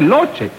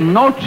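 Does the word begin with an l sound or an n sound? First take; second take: l sound; n sound. First: The word begins with an l sound. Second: The word begins with an n sound. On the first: The speaker calls it wrong. "no se dice loche" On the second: The speaker calls it right. "Se dice noche"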